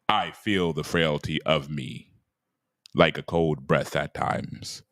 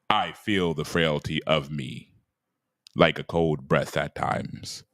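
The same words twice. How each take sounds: First: It is read in a grand, dramatic voice. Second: The same.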